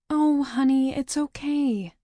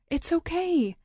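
First: Smiling comfort. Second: High, bright reassurance; higher, quick it's okay; relieved reassurance. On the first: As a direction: soothe a crying little sister. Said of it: "I smile". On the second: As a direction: comfort them with breathless relief. First reassurance, high and fast. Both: Acted.

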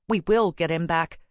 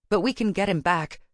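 First: "will" stressed with firm resolve. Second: Said in the usual way. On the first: A narrator's reading. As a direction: lean firmly on the word "will". Repeats with will for can.

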